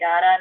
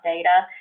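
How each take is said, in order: First: The word is said with an Australian pronunciation. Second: The word is said with a non-Australian pronunciation. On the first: "I'm born in Australia, if you can't tell, because I do say data" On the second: "not data"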